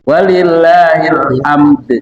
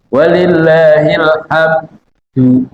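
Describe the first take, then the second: First: The word ends with a bounced d sound. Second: The word ends with d plus a vowel. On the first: "D-nya sama sama ahad" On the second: "kalau umpamanya Bapak masih malu-malu dehnya, walillahil hamdu gitu aja"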